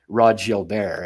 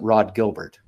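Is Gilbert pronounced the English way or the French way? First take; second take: French; English. First: Gilbert is pronounced the French way. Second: Gilbert is pronounced the English way. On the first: This is how the family says the name. The speaker calls it right. "and vice versa" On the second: This is not how the family says the name. The speaker calls it wrong. "It wasn't Rod Gilbert"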